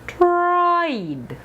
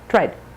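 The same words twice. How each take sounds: First: The vowel is held long and glides. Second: The vowel is cut very short. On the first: The speaker calls it right. "You want them long" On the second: The speaker calls it wrong. "Be sure you're not saying tried, rice. Very short"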